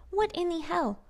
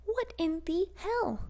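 First: High, outraged, punched WHAT; high exasperated repeat. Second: High, slow, drawn-out outrage; stunned and furious at the attacks; outraged disbelief. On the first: Vlogger to viewers, repeating it in outraged disbelief. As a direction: hit "What" hard, still stunned. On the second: Vlogger to viewers, stunned and outraged at the attacks. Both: Real, not acted.

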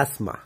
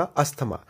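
First: एस्मा with no "tha" sound; English pronunciation. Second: अस्थमा with an aspirated "tha"; Hindi pronunciation. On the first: Teacher giving the English form, English pronunciation. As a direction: say एस्मा as "as-maa". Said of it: "तब हम इसको बोलते हैं". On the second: Teacher quoting how Hindi speakers say it, Hindi pronunciation. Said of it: "Hindi में इसको लोगों को सुना होगा". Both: Shown as a demonstration.

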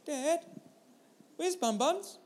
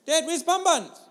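First: Put-on a small girl piping up behind Dad's seat; little girl's voice. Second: Put-on high, louder child voice pressing the question; insistent little girl. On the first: Little daughter asking Dad from the back seat, high child voice. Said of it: "I hear a little voice". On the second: Daughter demanding an answer from Dad, high and louder. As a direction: she asks again, more urgent.

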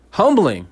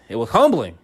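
First: Humbling said higher, with weight on the word; emphatic repeat. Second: Said in the usual way. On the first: Shown as a demonstration. Talk-show host stressing Humbling, emphatic repeat. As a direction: land hard on Humbling, slowly.

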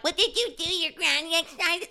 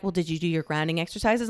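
First: High, softer mocking echo of a therapist; squeaky sarcastic mimicry; mocking parrot. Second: Low, soft, quick therapist voice; therapist's routine question. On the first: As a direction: parrot the question in a silly high voice. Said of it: "I'm like". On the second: Retold or imitated. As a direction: imitate a counsellor checking in quietly. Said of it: "and they'll be like".

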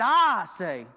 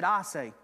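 First: I say, said much louder with weight; louder emphatic. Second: Said in the usual way. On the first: Acted. Preacher quoting Jesus' authority, loud firm I say.

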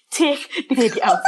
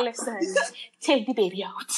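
First: Half-laughing repeat of the plea. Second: Desperate whispered plea. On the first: Mother retelling her plea to the midwife, laughing. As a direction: laugh through the begging. Retold begging midwife in labor. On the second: Mother in labor begging the midwife, whispered. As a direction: whisper it, pleading through labor. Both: Retold or imitated.

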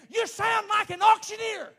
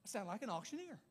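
First: High, very loud preacher's shout; climactic shout. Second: Soft, understated repeat after the climax; subdued realization. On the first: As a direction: blast out the sudden thought. Shouts the sudden thought at climax. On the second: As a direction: drop right down, as if taking it in. Deflated repeat after the shouted thought. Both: Retold or imitated.

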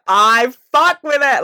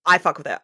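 First: Loud, high, drawn-out "fuck"; slow, emphatic repeat leaning hard on "fuck"; emphatic admission. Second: Said in the usual way. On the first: Real, not acted. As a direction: stretch "fuck" and belt it out higher and louder.

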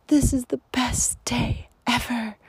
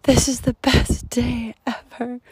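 First: Whispered quote. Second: Put-on higher, louder echo of the girl's cheer; brighter repeat. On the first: Retold or imitated. Retelling the little girl on the trail, whispered. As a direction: whisper the child's joy. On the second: Retelling the little girl on the trail, higher and louder. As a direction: say it out with delight. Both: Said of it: "all I heard was".

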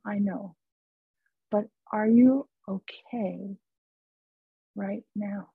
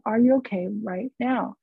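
First: Gently ask, letting each word settle; very calm. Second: Said in the usual way. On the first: Retold or imitated. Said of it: "this voice was very calm".

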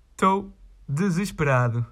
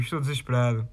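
First: Hammed-up despairing groan on "Estou desesperado"; mock despair. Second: Said in the usual way. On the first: Fed up with the requests, he moans in mock despair. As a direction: play it like a tragic hero, half joking. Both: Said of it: "É o que eu digo".

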